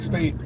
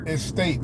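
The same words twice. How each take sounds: First: "state" said without the opening e; "state", the clipped accent version; dropped e. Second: "estate" with a clear opening e sound; careful estate. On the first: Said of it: "it's my Texas accent". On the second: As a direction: say "estate" as e-state, not state. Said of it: "not state". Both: Shown as a demonstration.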